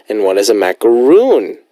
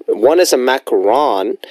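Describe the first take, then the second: First: "macaroon" said with a long "oo" ending, "-roon"; "macaroon" stressed on the long "roon". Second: "macaron" said with a final "-ron" as in on; "macaron" ending in "-ron", stress on the last syllable. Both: Shown as a demonstration. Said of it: "That's the difference".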